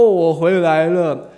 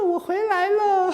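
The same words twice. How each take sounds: First: It is said in the wolf's gruff voice. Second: It is said in a disguised motherly voice.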